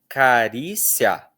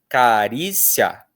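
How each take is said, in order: Both takes have the same delivery.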